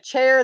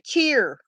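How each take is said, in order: First: The vowel sounds like in chair. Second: The vowel sounds like in cheer. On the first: "Instead of chair" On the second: "they'll say cheer"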